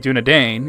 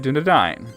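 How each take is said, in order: First: The final syllable is said like 'ain'. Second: The final syllable is said like 'ein'. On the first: The speaker calls it wrong. "you don't say Dunedain" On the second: The speaker calls it right. "you say Dunedain"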